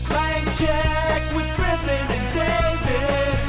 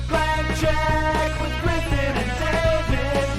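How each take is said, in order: The two takes are said the same way.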